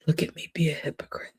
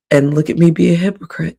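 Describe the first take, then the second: First: Whisper. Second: Said in the usual way. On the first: Real, not acted. Confessing to viewers she's a hypocrite, whispered. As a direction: repeat it in a fast breathy whisper. Repeats the line as a hushed aside.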